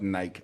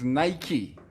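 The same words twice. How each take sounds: First: It does not end with an 'ee' sound. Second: It ends with an 'ee' sound, like 'spiky'. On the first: The speaker calls it wrong. "not Nike" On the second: The speaker calls it right. "it is Nike, like spiky"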